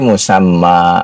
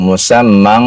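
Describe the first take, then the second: First: The word ends on a plain vowel. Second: The word ends with a nasal sound. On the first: The reader stops after this word. "Tadi Bapak mau berhenti, berhenti musamma" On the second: The reader joins it to the next word. "Kalau Bapak mau sambung, musammang"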